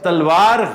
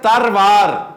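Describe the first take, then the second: First: The middle consonant is an L sound. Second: The middle consonant is an R sound. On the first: The speaker calls it wrong. "लेकिन तलवार गलत है" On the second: The speaker calls it right. "तलवार की बजाय लफ्ज है तरवार"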